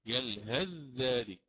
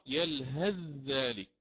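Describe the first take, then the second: First: The th sound merges into the following dh. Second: The th sound merges into the following dh.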